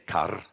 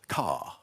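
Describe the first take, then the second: First: The word ends with a trilled R sound. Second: The word ends with no R sound. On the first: "like in Welsh, with an r, with a trill sound like that" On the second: "in R P"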